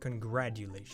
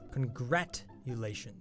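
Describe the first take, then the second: First: The middle consonant is a D sound. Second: The middle consonant is a T sound. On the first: The speaker calls it wrong. "not congratulations. It's not how you say it" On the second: The speaker calls it right.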